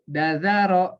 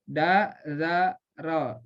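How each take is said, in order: First: The syllables run together quickly without pauses. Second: Each syllable is separated by a short pause. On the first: The speaker calls it right. "gitu harus cepat" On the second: The speaker calls it wrong. "Jadi bukan begini"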